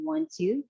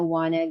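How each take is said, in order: First: It is said as the full form want to. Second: It is said as the reduced form wanna. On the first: It is formal speech. The speaker calls it right. "the more formal way to say it" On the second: It is informal speech. The speaker calls it wrong. "instead of gonna wanna"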